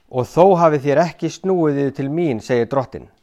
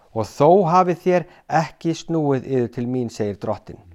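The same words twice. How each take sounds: Both takes have the same delivery.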